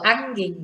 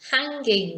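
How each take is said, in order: First: The h at the start is dropped. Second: The h at the start is pronounced. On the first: The speaker calls it wrong. "if we don't, because often in English we don't pronounce H" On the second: The speaker calls it right. "We should pronounce H"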